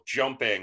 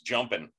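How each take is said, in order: First: The ending is said in full with the g. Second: The ending is cut short without the g. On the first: "instead of, you know" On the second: "cut off the last letter of a lot of words"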